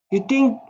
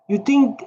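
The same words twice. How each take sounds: The two takes are said the same way.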